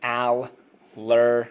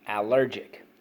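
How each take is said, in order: First: Allergic stretched very slowly, a bit louder; slow drawn-out model. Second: Said in the usual way. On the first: Shown as a demonstration. Teacher modelling allergic slowly for the class. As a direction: draw out Allergic syllable by syllable. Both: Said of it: "so let's go".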